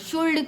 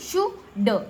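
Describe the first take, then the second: First: The L sound is pronounced in the word. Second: The L sound is silent in the word. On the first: The speaker calls it wrong. "कुल्ड क्यों नहीं पढ़ते" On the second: The speaker calls it right. "एल silent हो जाता है, तो हम इसको पढ़ेंगे शुड"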